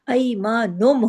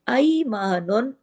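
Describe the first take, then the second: First: The word ends with an 'm' sound. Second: The word ends with an 'n' sound. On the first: The speaker calls it right. "उस नून की आवाज़ को हम मीम में बदल देंगे" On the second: The speaker calls it wrong. "नून दो पेश नून है"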